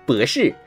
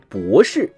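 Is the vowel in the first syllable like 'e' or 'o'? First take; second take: e; o. First: The first syllable has an 'e'-like vowel instead. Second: The first syllable has a standard 'o' vowel. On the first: "他们会说博士" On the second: "普通话说的博士"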